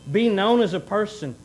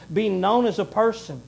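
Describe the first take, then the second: No difference in how they are said.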